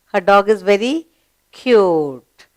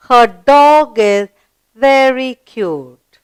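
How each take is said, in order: First: Said in the usual way. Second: Put-on very slow, deliberate reading for children; slow read-aloud. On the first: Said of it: "underline the word cute". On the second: Shown as a demonstration. Teacher reading the sentence very slowly to children. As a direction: stretch every word out for the class. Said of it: "Read the sentence".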